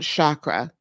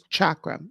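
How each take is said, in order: First: The word does not begin with 'ch' as in church. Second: The word begins with 'ch' as in church. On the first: The speaker calls it wrong. "So it's not chakra" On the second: The speaker calls it right. "the C is like a CH as in church"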